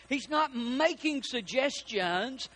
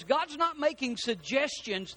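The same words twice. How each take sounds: First: "not making suggestions" stretched out slowly; slow emphasis. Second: Said in the usual way. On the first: Real, not acted. Preacher repeats God's point to congregation, slow emphasis on "not".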